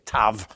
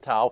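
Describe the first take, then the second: First: The word ends with a v sound. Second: The word ends with an open vowel sound. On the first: This is the modern pronunciation. "in modern Hebrew, they don't say tau, they say tav" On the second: This is the ancient pronunciation. "Ezekiel probably didn't say tav, he said tau"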